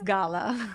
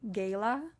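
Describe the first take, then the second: First: The first vowel has a non-American sound. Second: The first vowel has an American-style sound. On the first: This is how the owners say the name. The speaker calls it right. "but it's Gala" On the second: This is how some Americans say the name. The speaker calls it wrong. "some of the Americans say Gala"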